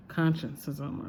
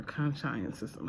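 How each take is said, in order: First: Consciencism said like "conscience-ism", KON-shun-siz-um; first syllables of consciencism as in the word conscience; alternate pronunciation. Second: Consciencism said like "con-science-ism", kon-SHY-un-siz-um; alternate pronunciation. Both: Shown as a demonstration. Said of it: "however you pronounce it".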